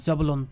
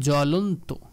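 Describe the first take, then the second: First: A b sound follows the first consonant. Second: No b sound follows the first consonant. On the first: The speaker calls it wrong. "আমরা এটাকে বলবো না" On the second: The speaker calls it right. "বফালার কোনো উচ্চারণ হয় না"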